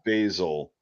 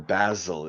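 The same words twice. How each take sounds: First: It is said with an American pronunciation. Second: It is said with a British pronunciation.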